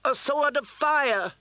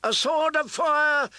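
First: High, slow triumphant shout. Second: High, loud chanting shout; crowd cry. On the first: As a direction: cry out in triumph. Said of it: "shouted Queen Selyse". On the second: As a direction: roar it as one of the crowd. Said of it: "took up the cry". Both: A narrator's reading.

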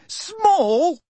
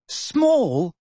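First: Shrill disbelief. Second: "Small?" raised in surprise, rising; incredulous. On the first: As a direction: squeak "Small?" in outraged disbelief. Hermione echoing louder, higher. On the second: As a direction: echo "Small?" in disbelief. Hermione echoing in disbelief. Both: A narrator's reading.

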